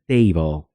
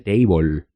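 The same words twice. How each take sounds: First: The final E is silent. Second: The final E is pronounced. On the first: The speaker calls it right. "se pronuncia table" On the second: The speaker calls it wrong. "en lugar de table"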